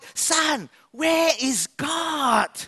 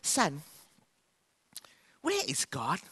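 First: It is said in a raised, loud voice. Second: It is said gently and softly.

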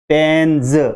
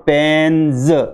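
First: The word ends with a buzzing z sound. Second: The word ends with a buzzing z sound.

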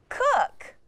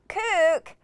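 First: The vowel is a short 'oo' as in book. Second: The vowel is a long 'oo' as in moon. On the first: The speaker calls it right. "Try the UH pronunciation" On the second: The speaker calls it wrong. "Try OO first. ... that doesn't sound right"

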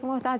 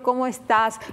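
First: The mouth stays nearly closed and the words sound mumbled. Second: The mouth opens wide and the words sound clear. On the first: The speaker calls it wrong. "sin abrir, no abrimos la boca" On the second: The speaker calls it right. "abramos la boca para hablarles"

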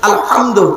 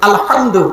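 No difference in how they are said.

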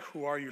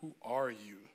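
First: It sounds like a friendly, curious question. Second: It sounds like a hostile, challenging question.

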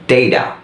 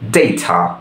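First: It is said with an American accent. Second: It is said with a British accent.

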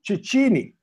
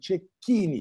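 First: The middle consonant sounds like ch in church. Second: The middle consonant sounds like a k. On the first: The speaker calls it wrong. "everywhere in English speaking countries, they call me" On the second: The speaker calls it right. "C-H is like a K"

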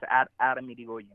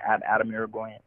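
First: The R in the surname is rolled. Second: The R in the surname is not rolled. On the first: The speaker calls it right. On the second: The speaker calls it wrong.

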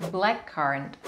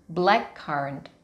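The two takes are said the same way.

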